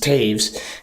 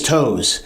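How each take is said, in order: First: The vowel sounds like 'ay', as in saves. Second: The vowel sounds like 'oh', as in toes. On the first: The speaker calls it right. "it's actually Taves. That's how it's pronounced" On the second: The speaker calls it wrong. "people who aren't in the know will say that name is Toes"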